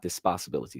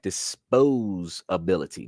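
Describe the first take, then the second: First: The middle sounds like 'possibility'. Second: The middle sounds like 'pos-ability'. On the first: The speaker calls it wrong. "not dispossibility" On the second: The speaker calls it right. "we would be calling that disposability"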